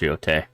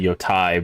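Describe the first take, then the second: First: The final vowel sounds like 'eh'. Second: The final vowel sounds like 'eye'. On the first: The speaker calls it right. "It makes an E sound, so it's yote" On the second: The speaker calls it wrong. "a lot of people say yotai because that's what it looks like"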